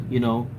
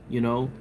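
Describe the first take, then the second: The two takes are said the same way.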